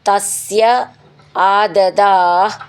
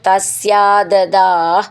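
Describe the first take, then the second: First: The two words are said separately. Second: The two words are joined into one.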